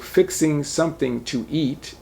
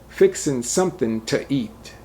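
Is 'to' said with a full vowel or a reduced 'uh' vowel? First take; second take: full; reduced. First: Full -ing endings and a full vowel in 'to'. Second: Dropped g endings and a reduced 'uh' in 'to'. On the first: "So fixing something to eat is" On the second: "The O becomes a uh"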